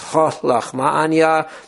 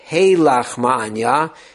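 First: The first vowel is an open 'ah' sound. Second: The first vowel is an 'ay' sound. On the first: "you do say it with a komatz" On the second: "but with a tzere"

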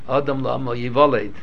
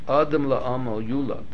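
First: The last word is pronounced 'yivaled'. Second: The last word is pronounced 'yulad'. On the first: The speaker calls it wrong. "There are people who always mispronounce it" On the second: The speaker calls it right. "a pasuk in Iyov"

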